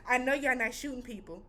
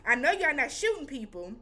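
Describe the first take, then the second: First: Said in the usual way. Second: Incredulous, leaning on SHOOTING; emphatic disbelief. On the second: Retold or imitated. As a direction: hit SHOOTING hard, as if refusing to believe it. Repeats it with more disbelief.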